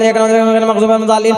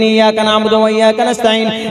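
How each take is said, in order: First: It is recited very fast and rushed. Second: It is recited slowly and calmly.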